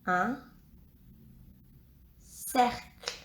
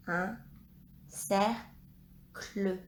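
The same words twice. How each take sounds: First: Said in the usual way. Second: "cercle" split in two, cer, pause, cle; syllable by syllable. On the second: Shown as a demonstration. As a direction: break "cercle" into slow separate syllables. Dictating a word syllable by syllable.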